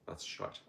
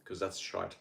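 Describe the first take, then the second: First: Much softer, breathy whispered that's shite; whispered repeat. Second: Said in the usual way. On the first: Real, not acted. Repeating his verdict on bad health, under his breath. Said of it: "'cause that's shite".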